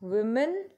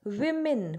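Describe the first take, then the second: First: वुमेन said as "wu-men" with a rounded first vowel and a rising tune; careful pronunciation. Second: विमेन said as "wi-min" with a short i first vowel and a falling tune; careful pronunciation. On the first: Teacher contrasting singular for pupils, careful rising वुमेन. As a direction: say वुमेन with the "wu" sound, rising at the end. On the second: Teacher contrasting plural for pupils, careful falling विमेन. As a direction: say विमेन with the "wi" sound, falling at the end. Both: Shown as a demonstration. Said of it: "pronunciation में ध्यान देंगे बेटा".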